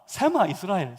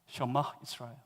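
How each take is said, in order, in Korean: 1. 첫 단어는 평범한 's' 소리로 시작해요. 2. 첫 단어는 'sh' 소리로 시작해요. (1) "갱상도라고 하는 사람들은 다 세마 이스라엘" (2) "정확하게 발음하면 셔마 이스라엘입니다"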